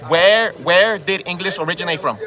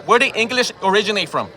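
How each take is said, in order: First: Slower, each word spaced out; slow pointed repeat. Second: Said in the usual way. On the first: Real, not acted. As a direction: repeat the question slowly and pointedly. Repeated challenge in argument.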